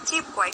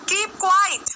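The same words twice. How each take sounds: First: It is said softly and gently. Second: It is said sharply and forcefully. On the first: It is a kind, mild request. "बहुत प्यार से बोल रही हूँ" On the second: It is a strong command with consequences. "Strong command है"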